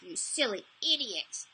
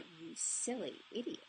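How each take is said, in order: First: It is said harshly, with great intensity. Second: It is said in a sexy, sultry voice. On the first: It is a harsh self-criticism. The speaker calls it wrong. "I would say it with that level of intensity" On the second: The self-criticism loses its power. The speaker calls it right. "turned it into a sexy, sultry voice"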